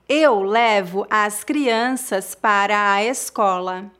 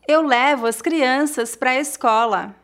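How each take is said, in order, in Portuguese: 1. A frase é falada devagar e com cuidado. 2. A frase é falada em velocidade natural. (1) "uma vez mais devagar" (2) "outra vez mais naturalmente"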